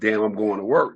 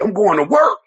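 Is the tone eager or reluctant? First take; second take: reluctant; eager. First: It sounds reluctant and fed up. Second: It sounds eager and happy.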